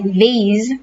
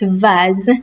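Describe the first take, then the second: First: It is said with an American accent. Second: It is said with a British accent. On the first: "sounds like vase in American English" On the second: "it's vase in British English"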